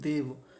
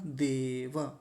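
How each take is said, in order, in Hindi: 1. अंतिम अक्षर अपने स्वर के बिना कटा हुआ है। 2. अंतिम अक्षर पूरा है, अपने स्वर के साथ। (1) "कुछ लोग गलत उच्चारण क्या करते हैं?" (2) "क्योंकि व जो है वो पूरा है"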